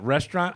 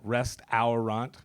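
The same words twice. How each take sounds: First: It is said normally, with syllables run together. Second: Every syllable is sounded out as it is spelled.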